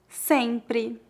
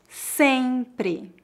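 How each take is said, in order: First: It is spoken at a natural pace. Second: It is spoken slowly and carefully. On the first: "2 vezes mais naturalmente" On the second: "Uma vez mais devagar"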